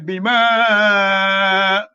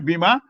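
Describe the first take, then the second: First: The vowel in ma is drawn out long. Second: The vowel in ma is short. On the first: The speaker calls it right. "ma has got madda. you say bima" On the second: The speaker calls it wrong. "You will not say bima"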